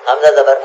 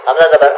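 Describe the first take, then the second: Both takes have the same delivery.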